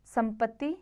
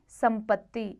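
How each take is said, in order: First: संपत्ति with a single t, ending lifted; wrong single consonant. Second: संपत्ति with a held double t; correct double consonant. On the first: Teacher shows the error, संपत्ति with single t. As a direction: say संपत्ति as sampati. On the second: Teacher corrects it, संपत्ति with double t. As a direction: say संपत्ति as sampatti. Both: Shown as a demonstration. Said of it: "व्यंजन द्वितीय संबंधी".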